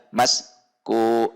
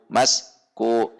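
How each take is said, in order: Both takes have the same delivery.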